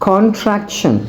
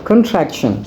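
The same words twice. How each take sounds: No difference in how they are said.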